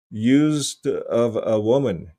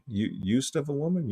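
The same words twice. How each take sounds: First: Said in the usual way. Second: Softer, puzzled echo as a question; incredulous query. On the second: Real, not acted. Host doubting the dictionary note, incredulous query. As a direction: question the phrase in disbelief. Querying what he just read.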